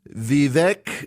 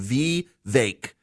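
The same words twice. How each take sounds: First: The last syllable does not rhyme with cake. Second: The last syllable rhymes with cake. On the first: The speaker calls it wrong. "wait, wait, wait. I got to pronounce this right" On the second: The speaker calls it right. "it rhymes with cake, he said, and it's a hard. It's a hard E"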